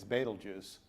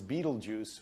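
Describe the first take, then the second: First: The name does not sound like beetle juice. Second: The name sounds like the words beetle juice. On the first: It is the actual name of the star. The speaker calls it right. "when it's Betelgeuse" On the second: It is the common American way of saying it. The speaker calls it wrong. "so many Americans pronounce it as Beetlejuice"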